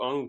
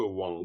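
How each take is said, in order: First: The syllable starts directly with the vowel. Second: The syllable starts with a w sound. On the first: The speaker calls it right. "plutôt Ang que Wang" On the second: The speaker calls it wrong. "plutôt Ang que Wang"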